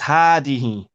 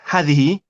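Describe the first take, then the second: First: The first vowel is said long. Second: The first vowel is said short. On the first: The speaker calls it right. "we pronounce the alif and we do not write it" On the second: The speaker calls it wrong. "it's not هذه"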